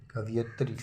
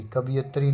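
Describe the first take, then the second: First: कवियत्री as ka-va-yitri, no i on va; correct pronunciation. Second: कवियत्री said ka-bi-yatri; wrong pronunciation. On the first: Teacher corrects the vowel sign, कवियत्री as ka-va-yitri. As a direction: move the i off va in कवियत्री. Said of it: "वा में छोटी की मात्रा नहीं". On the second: Teacher rejects the misspelling, कवियत्री as ka-bi-yatri. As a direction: put a short i before ya in कवियत्री. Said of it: "कवियत्री नहीं". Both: Shown as a demonstration.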